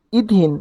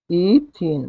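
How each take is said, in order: First: Said in the usual way. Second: ইথিন drawn out as a long "ee", then "theen"; syllable by syllable. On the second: Shown as a demonstration. Teacher sounding out the alkene's name for students, ইথিন in slow syllables. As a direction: split ইথিন into two stretched syllables.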